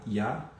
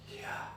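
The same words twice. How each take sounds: First: Said in the usual way. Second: Breathy Yah drawn in on an inhaled breath; spoken while inhaling. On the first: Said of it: "a gente fala inspirando". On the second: Shown as a demonstration. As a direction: pull the air in as you say Yah. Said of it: "a gente fala inspirando, puxando o ar". (falado inspirando)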